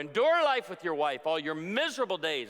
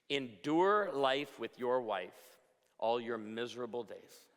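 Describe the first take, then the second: First: It is delivered in a put-on preacher voice. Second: It is read in his ordinary speaking voice. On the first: "in a preacher voice" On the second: "which reads"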